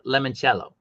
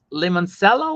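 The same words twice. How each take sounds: First: Limoncello said "lemon-CHELL-oh". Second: Limoncello said "lemon-SELL-oh"; soft S in Limoncello. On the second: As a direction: say Limoncello with an S sound, "sello". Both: Shown as a demonstration. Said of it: "Is the name Limoncello or Limoncello?".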